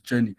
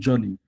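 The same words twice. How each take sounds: First: The first vowel is said long. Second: The first vowel is said short. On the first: This is the standard way expected in the exam. The speaker calls it right. "rightly speaking, that thing is journey" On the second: This is the everyday local way of saying it. The speaker calls it wrong. "I also call it journey"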